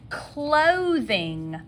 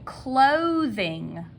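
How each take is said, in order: Both takes have the same delivery.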